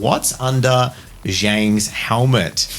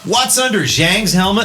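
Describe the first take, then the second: First: It is read in the speaker's ordinary accent. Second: It is read in a put-on California American accent.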